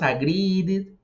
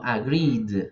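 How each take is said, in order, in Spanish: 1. La terminación se pronuncia como una sílaba aparte. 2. La terminación es solo el sonido d. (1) "no decimos agreed" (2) "sino agreed"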